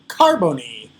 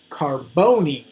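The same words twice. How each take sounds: First: The stress falls on a different syllable. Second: The stress falls on the usual syllable. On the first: The speaker calls it wrong. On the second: The speaker calls it right.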